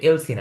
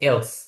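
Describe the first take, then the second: First: The word ends with an added 'ee' vowel. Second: The word ends cleanly on the s sound. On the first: The speaker calls it wrong. "এলসি না, কিন্তু অনেকে এলসি বলে" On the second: The speaker calls it right. "What এলস"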